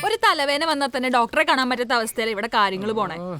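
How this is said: The line is said lightly, with laughter. The speaker calls it wrong.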